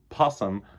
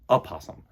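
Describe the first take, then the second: First: The word starts directly with the p sound. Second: The word starts with a vowel before the p. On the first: The speaker calls it wrong. "It's not possum" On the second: The speaker calls it right. "It's opossum. So that's the right way to say the word"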